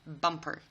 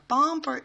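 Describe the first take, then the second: First: The first vowel is kept very short. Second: The first vowel is drawn out long. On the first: The speaker calls it right. "you have to make sure it is a short sound" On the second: The speaker calls it wrong. "Bumper is the wrong way of saying this"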